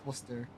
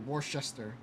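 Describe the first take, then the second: First: It is pronounced the way locals say it. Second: It is pronounced the way outsiders say it. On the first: The speaker is from the area. The speaker calls it right. "No, it's Worcester" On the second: The speaker is not from the area. The speaker calls it wrong. "if you're out of Mass, you'll say Worcester"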